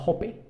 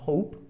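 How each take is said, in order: First: "hope" said in two syllables, sounding the final E; final E sounded. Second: "hope" as one syllable, final E silent. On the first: Teacher showing students the mistake, "hope" with E sounded. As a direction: pronounce the silent E of "hope" as a vowel. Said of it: "No decimos hope". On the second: Teacher correcting the mistake, "hope" with silent E. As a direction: say "hope" correctly, leaving the last E unvoiced. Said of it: "la silent E". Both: Shown as a demonstration.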